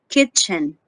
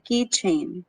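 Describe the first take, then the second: First: The first vowel is a short i sound. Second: The first vowel is a long ee sound. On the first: The speaker calls it right. "the correct sound" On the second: The speaker calls it wrong. "I often hear some people say keychain"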